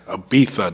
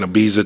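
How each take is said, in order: First: The middle consonant is a soft 'th' sound. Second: The middle consonant is a buzzing 'z' sound. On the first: The speaker calls it right. "That's how you say it" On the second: The speaker calls it wrong. "no, that's not how you pronounce it"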